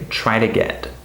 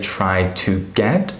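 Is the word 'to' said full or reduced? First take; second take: reduced; full. First: The word 'to' is short, quiet and reduced. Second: The word 'to' is said fully and clearly. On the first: The speaker calls it right. "we say try to get" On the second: The speaker calls it wrong. "We don't say try to get"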